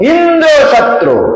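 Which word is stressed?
Indra. The stress is on Indra.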